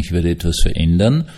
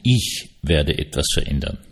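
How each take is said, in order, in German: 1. Das Wort ich ist nicht besonders betont. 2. Das Wort ich ist stark betont.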